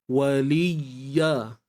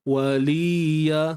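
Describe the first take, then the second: First: The y sound is pressed and held longer. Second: The y sound is short, with no extra pressure. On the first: The letter is clearly heard as doubled. The speaker calls it right. "Tapi bila kita tekan" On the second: It sounds like a plain long vowel, not a doubled letter. The speaker calls it wrong. "Kalau kita tak bagi penekanan, ... macam tak cukup"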